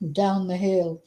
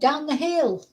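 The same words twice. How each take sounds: First: It is said in a deeper voice. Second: It is said in a higher voice.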